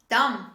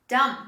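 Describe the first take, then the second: No difference in how they are said.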